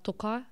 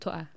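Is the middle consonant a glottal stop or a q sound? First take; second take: q sound; glottal stop. First: It is said with a q sound. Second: It is said with a glottal stop.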